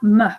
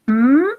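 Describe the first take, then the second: First: A short vowel follows the consonant sound. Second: The consonant sound is said alone. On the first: The speaker calls it wrong. "et pas me" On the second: The speaker calls it right. "On va prononcer la lettre M, m"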